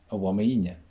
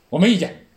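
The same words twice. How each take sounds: First: The voice sounds warm and sincere. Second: The voice sounds resentful and emotional. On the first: The speaker truly has no objection. "发自真诚的" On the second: The speaker actually objects strongly. "带着情绪……这个意见太大了"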